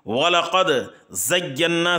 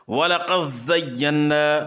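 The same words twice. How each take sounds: First: The d sound is clearly pronounced before z. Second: The d merges into a doubled z sound.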